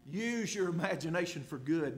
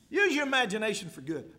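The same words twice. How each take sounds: First: Said in the usual way. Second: Emphatic repeat. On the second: Shown as a demonstration.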